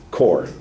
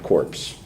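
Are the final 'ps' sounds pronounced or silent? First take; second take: silent; pronounced. First: The word ends in an r sound only. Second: The word ends with a p and s sound. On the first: The speaker calls it right. "Core is the word" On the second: The speaker calls it wrong. "not corpse"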